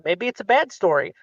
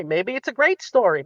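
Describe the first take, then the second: First: "bad" pressed down with a falling tune; stress on bad. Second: "great" pressed down with a falling tune; stress on great. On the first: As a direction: lean on "bad", let the line fall. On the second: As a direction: lean on "great", let the line fall. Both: Shown as a demonstration.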